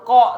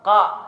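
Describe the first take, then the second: First: The vowel is a rounded o with pursed lips. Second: The vowel is a heavy a, tongue raised. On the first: The speaker calls it wrong. "bukan huruf ko, salah" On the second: The speaker calls it right. "Tetap ko. Kaidahnya huruf a"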